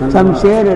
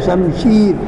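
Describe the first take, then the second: First: The second vowel is a mid 'e' sound. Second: The second vowel is a long 'ee' sound. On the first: The speaker calls it wrong. "ஷம்ஷேர் அல்ல" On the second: The speaker calls it right.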